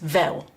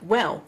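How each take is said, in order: First: It starts with a V sound, Cockney-style. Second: It starts with a W sound.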